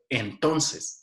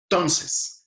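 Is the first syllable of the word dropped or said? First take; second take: said; dropped. First: The first syllable is said in full. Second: The first syllable is dropped from the word.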